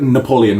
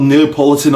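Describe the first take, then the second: First: "Napoleon" said as the correction; "Napoleon" ending in -lee-on, no t; corrected name. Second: "Neapolitan" said by mistake for Napoleon; "Neapolitan" with an extra t-syllable, unnoticed; misspoken name. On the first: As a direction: put right the slip with "Napoleon". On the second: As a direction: slip out "Neapolitan" in a list of names. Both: Real, not acted. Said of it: "not Neapolitan".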